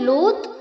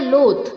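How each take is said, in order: First: The final sound is a hard t. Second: The final sound is an aspirated th. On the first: "ना ही त pronounce करना है" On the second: "ना ही थ pronounce करना है"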